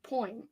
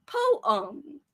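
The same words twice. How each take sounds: First: Poem said as poim, one syllable; Poem with an oi sound, poim; New Orleans poem. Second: Poem said poh-um, stiff and robotic; Poem as careful poh-um, like a robot. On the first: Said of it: "I like the way I say it". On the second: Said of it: "I sound like a robot". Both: Shown as a demonstration.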